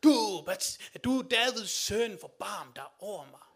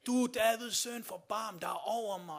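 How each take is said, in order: First: Desperate, louder, slower cry for mercy; crying out even louder. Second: A blind beggar's raised plea; pleading call for mercy. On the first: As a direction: shout over the crowd, stretching the plea. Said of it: "han råber endnu mere". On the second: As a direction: call out to the passing Jesus, louder. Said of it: "han siger". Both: Retold or imitated.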